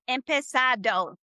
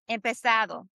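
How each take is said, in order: First: The d sounds hard, like English 'd'. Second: The d sounds soft, like English 'th'. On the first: The speaker calls it wrong. "Instead of empezado, That's American sound" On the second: The speaker calls it right. "the D O is going to be like the the though that we have in English"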